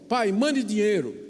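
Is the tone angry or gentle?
angry. It is read in a furious, demanding tone.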